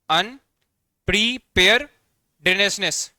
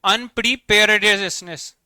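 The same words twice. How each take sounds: First: अनप्रिपेयर्डनेस very slowly, broken into अन, प्रि, पेयर्ड, नेस; syllable-by-syllable pronunciation. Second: Said in the usual way. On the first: Shown as a demonstration. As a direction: teach अनप्रिपेयर्डनेस in separate, drawn-out chunks with pauses between. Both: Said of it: "इसे इस प्रकार से उच्चारण करेंगे".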